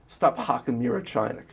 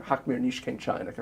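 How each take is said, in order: First: Said in the usual way. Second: "Hawk mir nicht kein chinik" said as a corrected Yiddish phrase, in a lightly voiced parent's tone. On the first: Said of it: "a parent might say to me". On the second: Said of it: "the, the".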